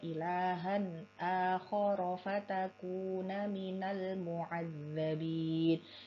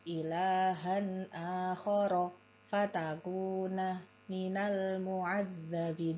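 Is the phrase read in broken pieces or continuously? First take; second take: continuous; broken. First: The phrase flows on without any breaks. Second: The phrase is chopped up with pauses between words. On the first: The speaker calls it right. "yang perlu dibiasakan jangan dipotong" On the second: The speaker calls it wrong. "Jangan dipotong-potong seperti itu"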